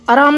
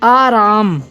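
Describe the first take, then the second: First: The first vowel is short and quick. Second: The first vowel is held long. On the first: The speaker calls it wrong. "आराम नहीं हो सकता" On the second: The speaker calls it right. "आ जब हम उच्चारण कर रहे हैं तो हम उच्चारण करते समय ठहर रहे हैं"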